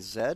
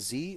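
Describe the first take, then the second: First: The letter is said as zed, British style. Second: The letter is said as zee.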